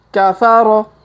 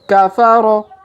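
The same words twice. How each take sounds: Both takes have the same delivery.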